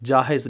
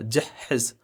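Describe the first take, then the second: First: The h sound is single and short. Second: The h sound is doubled and held longer. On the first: The speaker calls it wrong. "जाहिज नहीं" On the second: The speaker calls it right. "हा का जो लफ्ज़ है दो दफ़ा बोला जाता है"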